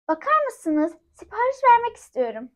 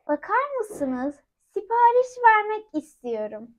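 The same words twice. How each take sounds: First: It is said fast. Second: It is said slowly.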